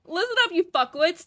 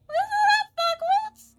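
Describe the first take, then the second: First: A hint of a rude boss, louder and higher; mild Kaiser voice. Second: Very high, loud, strained squawk; Kaiser's shrill voice. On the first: First try at the broker's rude greeting, lightly voiced. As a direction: bark it half-heartedly as the info broker. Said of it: "like, nasally voice". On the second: Acted. Streamer showing how the broker talks, very high loud squawk. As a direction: screech it like a nasty little broker. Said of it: "That's how he talks".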